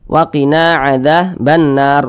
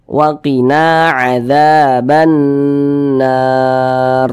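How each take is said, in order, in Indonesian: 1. Dengung huruf n dibaca pendek. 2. Dengung huruf n dibaca panjang. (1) "itu kurang, kadar gunnahnya kurang" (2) "suaranya itu kita tahan, kita panjangkan sejenak"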